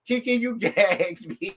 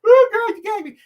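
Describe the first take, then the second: First: Laughing. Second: Much higher and louder, a thrilled squeal; delighted shriek. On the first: Host tells the guest she's floored, laughing through the words. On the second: Host squeals at the guest, thrilled and shocked. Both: Real, not acted.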